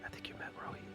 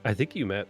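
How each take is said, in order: First: It is whispered very quietly. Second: It is said in a normal voice.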